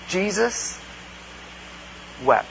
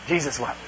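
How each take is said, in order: First: Jesus, long pause, then wept, soft; softer, pausing reflection on Jesus wept; slow meditative pause. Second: Tossed off like a memorized verse; quick checklist reading; dismissive rattled-off verse; rote recitation. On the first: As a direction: let Jesus hang before wept. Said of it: "if we actually meditated on that". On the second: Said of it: "any Sunday school kid's dream if they have to kind of memorize scripture". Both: Shown as a demonstration.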